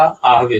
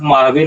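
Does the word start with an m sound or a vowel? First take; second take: vowel; m sound. First: The word starts with a vowel sound. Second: The word starts with an m sound. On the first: The speaker calls it right. "यहाँ उच्चारण होगा आहवे" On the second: The speaker calls it wrong. "यहाँ उच्चारण माहवे नहीं होगा"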